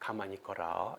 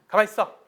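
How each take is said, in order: First: It is said softly and gently. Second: It is said coldly and curtly.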